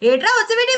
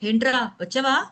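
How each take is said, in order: First: The words are clipped and run together. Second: The words are fully and clearly pronounced. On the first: The speaker calls it wrong. "ఇది కంప్లీషన్ లేదు" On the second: The speaker calls it right. "ఇది కంప్లీషన్"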